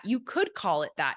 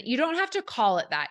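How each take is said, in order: First: "could" punched, the rest falling away; stress on COULD. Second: "have" lifted high, then falling; stress on HAVE. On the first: Coach allows listeners that name, stress on "could". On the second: Coach tells listeners the name is optional, stress on "have". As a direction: lean on "have" in "don't have to". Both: Real, not acted. Contrasts optional with possible naming.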